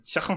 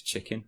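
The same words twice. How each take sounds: First: High Scouse "Chicken" with a throaty k; Scouse accent. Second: Said in the usual way. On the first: Shown as a demonstration. Showing the best word for getting into Scouse, Scouse accent. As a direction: hit "Chicken" in Scouse, the k scraped like "kh". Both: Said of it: "to get into the Scouse accent is chicken".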